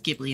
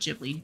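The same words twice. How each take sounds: First: It begins with a hard G sound. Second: It begins with a J sound. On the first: The speaker calls it right. "Ghibli with a G and not J" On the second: The speaker calls it wrong. "Ghibli would probably be a J"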